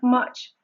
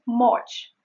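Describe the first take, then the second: First: Much with the short uh vowel; much as in English cut. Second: Much with an open ah vowel, mahch; much with a Spanish a sound; Spanish-style much. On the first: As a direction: say much with a relaxed uh. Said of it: "Instead of this sound". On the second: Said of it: "which is not much". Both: Shown as a demonstration.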